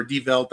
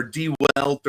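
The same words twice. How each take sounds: First: Die Welt as "dee velt"; German-style V. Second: Die Welt as "dee welt"; anglicised W. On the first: Host retrying the newspaper's name, with a German V. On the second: Host correcting the newspaper's name, with an English W. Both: Shown as a demonstration. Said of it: "don't have the best German accent".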